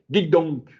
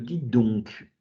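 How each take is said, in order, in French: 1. On dirait du choc et de l'indignation. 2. On dirait une question douce et gentille. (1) "le choc" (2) "simplement une question, mais une question qu'on atténue"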